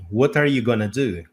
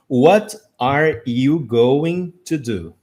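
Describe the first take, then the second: First: Going to is reduced to gonna. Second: Every word is pronounced fully and separately. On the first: It is how people really say it every day. "como ela realmente é no dia a dia" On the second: It is read word by word from a book. "pegar um livro e ler a frase assim"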